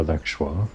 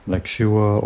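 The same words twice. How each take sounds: First: Lexua in two syllables, LEK-shwa; alternative pronunciation. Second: Lexua in three syllables, LEK-shoo-uh; alternative pronunciation. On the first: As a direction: say Lexua without a separate "oo". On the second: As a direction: slowly sound out Lexua with a separate "oo". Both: Shown as a demonstration. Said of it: "not sure how else it might be pronounced".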